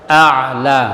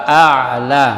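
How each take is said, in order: The two takes are said the same way.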